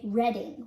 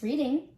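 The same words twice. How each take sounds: First: Reading as RED-ing; short e in Reading, like red; town-name pronunciation. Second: Said in the usual way. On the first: Shown as a demonstration. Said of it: "you need to say". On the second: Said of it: "you may be like me, who likes reading".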